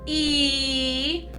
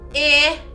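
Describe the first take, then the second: First: The vowel is said like its letter name. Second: The vowel is said with its short sound. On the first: "long vowels say their own names" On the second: "the short vowels say the other sounds"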